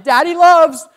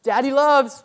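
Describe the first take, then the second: First: It is said louder, almost calling out. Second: It is said at a normal, softer volume.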